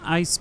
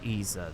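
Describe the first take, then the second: First: The name is said like the word ice. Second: The name is said like the word easer. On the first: The speaker calls it wrong. "I was calling him Ice before, uh, but then I was told, no, you're saying it wrong" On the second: The speaker calls it right. "So I think it's Easer"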